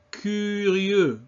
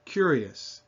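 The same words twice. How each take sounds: First: Curieux with fronted rounded u, higher in pitch; French U. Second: Said in the usual way. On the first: Shown as a demonstration. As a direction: model curieux in careful French. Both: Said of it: "French U sound".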